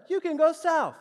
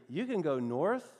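First: High, loud punchline; comic astonishment, voice shooting up; mock amazement. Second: Said in the usual way. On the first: Real, not acted. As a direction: hit the reveal in loud, high-pitched disbelief. Comic reveal after wouldn't you know.

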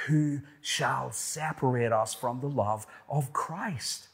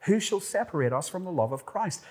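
First: Said in the usual way. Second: Higher, fast, urgent who; excited question. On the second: Real, not acted. Preacher repeating the third question with rising urgency. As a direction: fire the question out quickly. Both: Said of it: "Third question".

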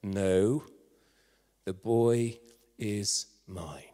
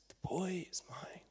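First: Low, deliberate claim with firm pauses; authoritative. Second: Slow, breath-soft whisper; hushed claim. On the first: Nobody stepping forward to claim the baby boy, authoritative. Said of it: "quite authoritatively said". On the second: Rescuer with burnt hands claims the boy, whispering. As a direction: whisper it slowly and tenderly. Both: Acted.

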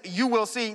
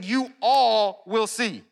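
First: Said in the usual way. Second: "all" drawn out slow and emphatic; slow delivery, leaning hard on "all"; stress on "all". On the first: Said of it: "this is actually plural". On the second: Shown as a demonstration. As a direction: stretch the word "all" to stress it. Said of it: "and he's saying".

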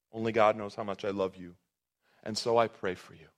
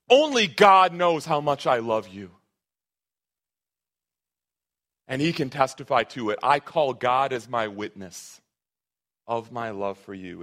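First: Soft, tender repeat. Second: Emphatic paraphrase. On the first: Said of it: "It's absolutely beautiful". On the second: Pastor voicing Paul's oath to the church, emphatic and loud. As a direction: swear it with God as witness. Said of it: "more emphatically say this is true". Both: Shown as a demonstration.

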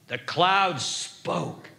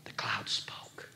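First: Slow, deliberate, lower voice; voiced and measured, letting each word land; solemn repeat. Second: Very soft, slow whisper; awed whisper. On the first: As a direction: spell out each word with weight. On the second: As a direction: drop suddenly to a hushed reveal. Hushed reveal after loud behold. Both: Real, not acted.

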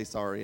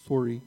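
First: "Sorry" said the Canadian way, long rounded o as in "sorey". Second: "Sorry" repeated with the Canadian rounded o, a bit louder. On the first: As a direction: say "Sorry" with the Canadian o, not "sah-ree". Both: Shown as a demonstration. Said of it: "That's how we say sorry in Canada".

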